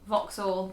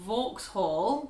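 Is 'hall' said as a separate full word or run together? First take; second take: run together; separate word. First: The ending runs straight on without a full 'hall'. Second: The ending 'hall' is said as a full separate word. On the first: The speaker calls it right. "just rolls straight over" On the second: The speaker calls it wrong. "pronouncing hall as you would if it was on its own in a word"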